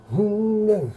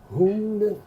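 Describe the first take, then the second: No difference in how they are said.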